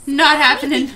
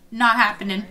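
First: "Not happening" pushed out much louder, hitting "Not"; loud refusal. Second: Said in the usual way. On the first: Real, not acted. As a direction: shut it down loudly. Refusing the Jay and Carlos date.

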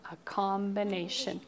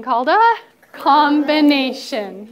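First: Said in the usual way. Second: Loud, stretched-out "combination"; "combination" syllable by syllable, higher and louder; emphatic class prompt. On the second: Shown as a demonstration. Repeats it for class to echo.

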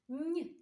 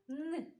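First: "Н" palatalized, like нь; isolated soft "Н". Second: "Н" as a hard, non-palatal sound; isolated hard "Н". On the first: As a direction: say "Н" softened, as before an і. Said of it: "з м'якого". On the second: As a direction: say "Н" alone, tongue not softened. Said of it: "з твердого приголосного". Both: Shown as a demonstration.

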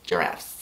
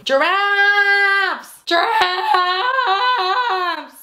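First: Very low, soft, whispery word; hushed. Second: Excited drawn-out cry. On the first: Repeating the nursery theme, hushed. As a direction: drop it right down to a whisper. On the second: Answering what the nursery theme is, excited drawn-out cry. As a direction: stretch the word way out, high. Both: Pretend.

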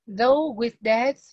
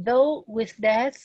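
First: Though with death, very slow and louder, "though" rising; slow reread for the class; reread slowly. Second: Though with death, very slow, "though" rising; slow textbook reading; read slowly. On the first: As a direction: reread the phrase slowly before translating. Rereads sentence to translate. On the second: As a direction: draw the phrase out word by word. Reads English text aloud. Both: Shown as a demonstration.

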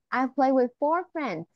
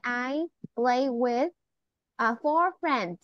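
First: Said in the usual way. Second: Slow, careful model sentence. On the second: Shown as a demonstration. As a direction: spell it out slowly for a child. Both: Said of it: "you can hear say".

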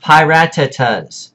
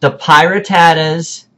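First: Piratatas said as pie-RAT-a-tas, falling; the right way, pie-RAT-a-tas; correct pronunciation. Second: Piratatas said as pie-ruh-TAD-uhs, stress late; mock the wrong Piratatas, pie-ruh-TAD-uhs; wrong pronunciation. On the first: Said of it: "Pie, like you eat, ra-ta-tas". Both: Shown as a demonstration.

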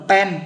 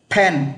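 First: "pen" with a hard unaspirated p; Vietnamese-style mispronunciation. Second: "pen" with a strong puff of air on the p; English aspirated P. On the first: Teacher warns learners off Vietnamese-style "pen", p without a puff. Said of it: "thì không phải phát âm là pen". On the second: Teacher models correct English "pen" for learners, p strongly aspirated. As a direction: burst the lips open on "pen", breath before the vowel. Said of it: "mà nó phát âm là". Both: Shown as a demonstration.

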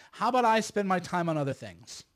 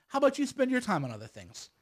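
First: "I" stressed, then falling away. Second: "you" lifted high, then falling away; stress on YOU. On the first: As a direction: lean on "I" to set it against "you". Contrasts himself with his opponents. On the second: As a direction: lean on "you", turning it back on them. Turns the same suggestion on them. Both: Real, not acted.

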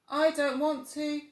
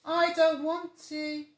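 First: Put-on higher, louder drowsy child; yawning little tiger. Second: Put-on higher, slow drowsy child; sleepy little tiger. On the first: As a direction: fight the yawn. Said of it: "yawned Little Tiger". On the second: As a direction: droop into sleep. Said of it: "said Little Tiger sleepily".

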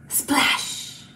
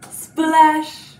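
First: Gasp, then a voiceless splash; whispered splash. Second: Loud, full-voiced splash. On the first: Pretend. Teacher dunking a kitty in paint for children, whispered. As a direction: whisper it like a little sound effect. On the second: Teacher dunking a kitty in paint for children, loudly voiced.

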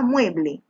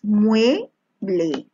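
First: Said in the usual way. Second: "mueble" in two separated syllables; teacher splitting "mueble" for the class. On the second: Shown as a demonstration. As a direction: say "mueble" slowly, pausing between its two syllables. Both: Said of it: "separa en sílabas".

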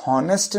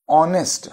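First: हॉनेस्ट mispronounced with a breath of h up front; sounded H, wrong way. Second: ऑनेस्ट with the h left silent. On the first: Teacher shows what is not said, हॉनेस्ट with sounded H. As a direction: say हॉनेस्ट with an audible h before the o. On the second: Teacher asks pupils to listen afresh, ऑनेस्ट with silent H. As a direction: say ऑनेस्ट starting straight on the open o vowel, no h. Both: Shown as a demonstration. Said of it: "हॉनेस्ट नहीं बोलते".

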